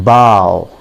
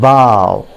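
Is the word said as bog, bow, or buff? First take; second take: bow; bow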